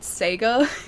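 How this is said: It is said the way Americans say it. "people who clearly call it Sega"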